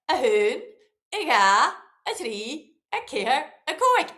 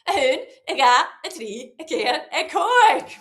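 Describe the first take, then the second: First: It is counted a bit faster. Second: It is counted as fast as possible.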